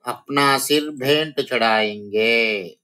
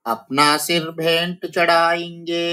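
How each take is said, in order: First: Said in the usual way. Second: Raised, sing-song recital of the line; poem recitation. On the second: Shown as a demonstration. Teacher reciting the poem line before explaining it, sing-song. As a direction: chant it like verse. Recited, then repeated plainly.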